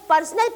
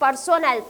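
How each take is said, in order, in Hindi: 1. यह 'personal' शब्द की तरह बोला गया है। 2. यह 'personnel' शब्द की तरह बोला गया है। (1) "कई बार बच्चे जो है इसे पर्सनल प्रोनाउंस करते हैं" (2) "इट्स प्रोनाउंसिएशन इज पर्सोनल"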